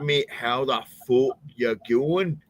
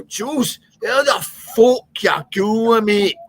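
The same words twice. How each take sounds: First: Slow, higher-pitched Glasgow brogue; Glaswegian accent, slowed down. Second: Loud, high, barely intelligible Glaswegian greeting; thick Glaswegian accent. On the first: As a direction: repeat it slowly, still thickly Glaswegian. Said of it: "slow down. Can you, can you say it again?". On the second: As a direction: holler it in an impenetrable Glasgow brogue. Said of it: "he was a Glaswegian". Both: Retold or imitated.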